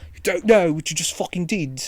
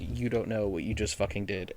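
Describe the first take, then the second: First: It is said imitating the attacker's voice. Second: It is said in the speaker's plain voice.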